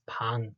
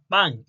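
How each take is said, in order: First: It is said with Korean pronunciation. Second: It sounds like the English word 'bang'. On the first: The speaker calls it right. "It's 방" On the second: The speaker calls it wrong. "not bang"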